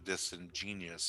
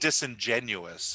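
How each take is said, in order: First: The ending is said like the word 'genius'. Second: The ending is said like 'genuous'. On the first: The speaker calls it wrong. "as opposed to disingenious" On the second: The speaker calls it right. "I think you mean disingenuous"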